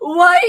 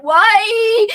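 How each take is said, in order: First: Theatrical cry. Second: Mock-tragic wail, much higher and louder; anguished cry. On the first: Acted. Replaying the story's cry as a hammed-up theater character. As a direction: overblown stage wail, high and loud. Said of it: "like some freaking theater character". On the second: Kicked by the director, crying out from the ground in mock anguish. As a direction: wail it like a wounded hero. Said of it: "I fell to the ground and cried".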